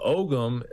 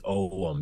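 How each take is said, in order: First: The g sound in the middle is pronounced. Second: The g sound in the middle is silent. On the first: "we're pretty literal with our pronunciation" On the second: "you don't say the "g.""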